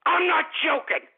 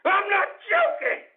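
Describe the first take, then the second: First: Firm, higher-pitched insistence; insistent. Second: High, strained angry shout; furious insistence. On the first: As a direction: stress that you mean it. Insists after calling for prosecution. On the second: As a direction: yell it, voice shooting up. Yells the insistence a second time. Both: Real, not acted.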